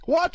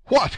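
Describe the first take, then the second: First: High exclamation of amazement; thoroughly astonished young man's outcry; greater astonishment. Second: High, loud burst of surprise; startled young man's outcry; astonished cry. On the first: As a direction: cry out, utterly taken aback. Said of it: "an accent of greater astonishment than before". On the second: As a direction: exclaim in sudden amazement. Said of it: "cried D'Artagnan". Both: A narrator's reading.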